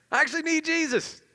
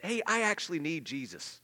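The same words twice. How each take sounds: First: Much higher and louder, emphatic; loud exclaimed. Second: Said in the usual way. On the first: Shown as a demonstration. Believer admitting to the church, high and emphatic. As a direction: proclaim it with full conviction. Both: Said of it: "We can admit".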